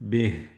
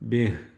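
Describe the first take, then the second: Both takes have the same delivery.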